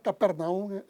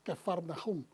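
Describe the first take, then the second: First: The name has a p sound after 'ca'. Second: The name has an f sound after 'ca'. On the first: This is the form people usually know. "normalmente lo conocemos" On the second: This is the original, true pronunciation. "la verdadera pronunciación es Cafarnaum"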